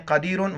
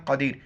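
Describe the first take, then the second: First: क़दीरुन with the un ending sounded; full क़दीरुन, thick q and closing n; non-pausal form. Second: क़दीर stopping on the r; क़दीर cut at the final r, thick q; pausal form. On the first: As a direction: say क़दीरुन with heavy क़ and final un. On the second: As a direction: say क़दीर with heavy क़, no ending after र. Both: Shown as a demonstration. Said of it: "वक्फ़न क़दीर".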